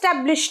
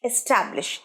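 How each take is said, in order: First: The stress is on the first syllable. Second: The stress is on the second syllable. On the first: The speaker calls it wrong. "Establish নয়" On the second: The speaker calls it right. "এসটা দেখো আমি ছোট উচ্চারণ করছি, ট্যাবটা বড়।"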